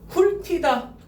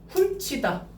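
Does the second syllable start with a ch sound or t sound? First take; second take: t sound; ch sound. First: The second syllable starts with a t sound. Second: The second syllable starts with a ch sound. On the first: Only liaison has applied. "일단은 연음된 거야. 티읕 받침이 뒤로 넘어간다고" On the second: Palatalization has applied after liaison. "구개음화. 그래서 치가 된 거야"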